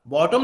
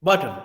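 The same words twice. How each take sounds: First: बॉटम with a full O, bo-tom; बॉटम, both vowels full; wrong bottom. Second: बॉटम with schwa, bo-təm; बॉटम, second vowel reduced; correct bottom. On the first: Teacher shows the wrong way: बॉटम, full O. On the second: Teacher gives the right form: बॉटम with schwa. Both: Shown as a demonstration. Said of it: "नहीं बोलते हैं".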